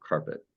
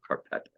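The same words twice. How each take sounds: First: "carpet" stressed on CAR; weight on the first syllable of "carpet". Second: "carpet" stressed on PET; weight thrown onto the last syllable of "carpet"; wrong-syllable stress. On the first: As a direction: say "carpet" as CAR-pet, soft and low. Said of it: "You go carpet". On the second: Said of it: "you don't go carpet". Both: Shown as a demonstration.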